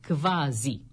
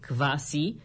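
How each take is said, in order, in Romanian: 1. Consoana din mijloc este un sunet z sonor. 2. Consoana din mijloc este un sunet s sibilant. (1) "dar s-ul se pronunță z" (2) "în românește îl scriem cu s"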